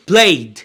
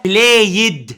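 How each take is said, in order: First: "بلايد" as one syllable, playd; correct d ending. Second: "بلايد" split in two, play-yed; wrong extra syllable. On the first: Teacher gives the right past form, one syllable. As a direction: say "بلايد" with only a voiced d added. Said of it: "يبقى اسمها ايه؟". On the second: Teacher shows the form that won't work, two syllables. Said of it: "مش هينفع". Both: Shown as a demonstration.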